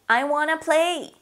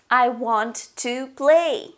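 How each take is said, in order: First: The words blend into a short reduced form. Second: Each word is pronounced fully and separately.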